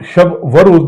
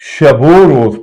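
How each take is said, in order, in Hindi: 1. दोनों लफ़्ज़ों के बीच एक अलग 'va' आता है। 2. 'o' की आवाज़ पहले लफ़्ज़ के साथ जुड़ जाती है। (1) "शब व रोज नहीं पढ़ेंगे" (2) "बल्कि इसको हम शबो रोज पढ़ेंगे"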